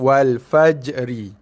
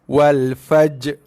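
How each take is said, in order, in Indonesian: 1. Bunyi r di akhir dibaca. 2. Bunyi r di akhir dihilangkan sepenuhnya.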